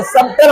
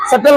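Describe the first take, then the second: First: "सबटल" with the b sounded; "सबटल" said as "sub-tal"; mistaken pronunciation. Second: "सटल" with no b; silent b. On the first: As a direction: close the lips for b in "सबटल". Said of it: "लेकिन क्या पढ़ेंगे इसको". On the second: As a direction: go straight to t in "सटल". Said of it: "बी को". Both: Shown as a demonstration.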